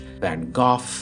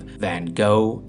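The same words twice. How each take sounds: First: The name is said with a British pronunciation. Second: The name is said with an American pronunciation. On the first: "as is the British Van Gogh" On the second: "the American pronunciation of Van Gogh is an abomination"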